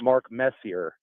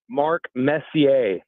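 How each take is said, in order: First: The surname is pronounced in an English style. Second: The surname is pronounced in a French style. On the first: The speaker calls it wrong. "not Mark Messier" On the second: The speaker calls it right. "it's Hall of Famer Mark Messier"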